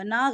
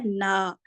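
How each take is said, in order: First: نا with the aa sounded through the nose; wrong nasal نا. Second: نا with a pure aa, no ghunna; correct oral نا. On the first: Teacher marks the wrong pronunciation for students, nasalised نا. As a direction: nasalise نا like a final noon ghunna. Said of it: "نا غلط". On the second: Teacher gives students the correct pronunciation, un-nasalised نا. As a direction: keep the vowel of نا out of the nose. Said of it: "صحیح تلفظ کیا ہے؟". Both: Shown as a demonstration.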